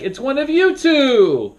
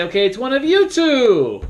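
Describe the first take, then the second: First: High, slow, loud suspense; dramatic fake-out. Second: High, sing-song teasing announcement; teasing moderator. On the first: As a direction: stretch it out to scare the two players. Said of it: "sometimes I might trick the whole group". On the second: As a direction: tease the last two suspects. Moderator narrowing down suspects. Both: Shown as a demonstration.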